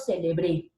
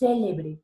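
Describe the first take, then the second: First: The stress is on the last syllable. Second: The stress is on the first syllable. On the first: "la mayor fuerza de voz está en la E, aguda" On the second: "se volvió una palabra esdrújula"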